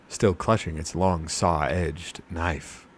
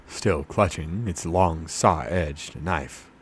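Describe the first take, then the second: Both takes have the same delivery.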